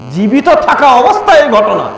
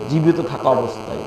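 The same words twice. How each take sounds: First: জীবিত থাকা অবস্থায় pitched high and driven home; emphatic repetition. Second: Said softly, low and even; understated first mention. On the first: Repeats the phrase for emphasis. (জীবিত থাকা অবস্থায় কথাটা উঁচু গলায় জোর দিয়ে) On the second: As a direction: drop the voice low and soft on the phrase. First take before emphatic repeat. (নিচু, নরম গলায়) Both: Real, not acted.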